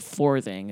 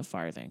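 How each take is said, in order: First: "farthing" said as "fourthing"; older form of word. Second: Said in the usual way. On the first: Shown as a demonstration. Explaining that the coin is a fourth of a penny, "farthing" as "fourthing". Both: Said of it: "that eventually evolved into farthing".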